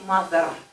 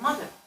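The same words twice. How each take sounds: First: The final syllable is pronounced fully. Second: The final syllable is reduced. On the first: The speaker calls it wrong. "You don't say mother" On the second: The speaker calls it right. "You say mother"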